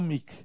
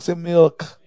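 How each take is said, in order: First: The word has a long ee vowel, no l. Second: The word has a short vowel and a clear l. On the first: The speaker calls it wrong. "It's not meek" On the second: The speaker calls it right.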